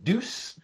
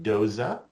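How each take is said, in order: First: The name ends in an s sound, like moose. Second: The name ends in a vowel sound after z. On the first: The speaker calls it wrong. "I often pronounced it Deuce, and I was told, no, it is not like a moose" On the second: The speaker calls it right. "that is the correct pronunciation"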